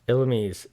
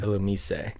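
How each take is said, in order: First: The name ends without a 'say' sound. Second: The name ends with a 'say' sound. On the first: "That's what I say" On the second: "The S E at the end makes a say"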